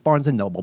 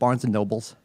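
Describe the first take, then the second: First: The last word ends without an s sound. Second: The last word ends with an s sound. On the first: The speaker calls it right. "notice I didn't use the S" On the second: The speaker calls it wrong. "You know what people call it"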